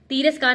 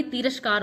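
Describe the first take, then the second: First: तिरस्कार with long first ee; wrong form. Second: तिरस्कार with short ti; correct form. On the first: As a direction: stretch the ti of तिरस्कार. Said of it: "तिरस्कार नहीं". (गलत उच्चारण, तिरस्कार) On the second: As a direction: say तिरस्कार as ti-ras-kaar. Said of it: "तिरस्कार होता है". (सही उच्चारण, तिरस्कार) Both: Shown as a demonstration.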